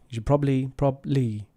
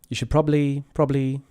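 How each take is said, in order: No difference in how they are said.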